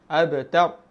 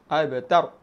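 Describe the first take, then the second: The two takes are said the same way.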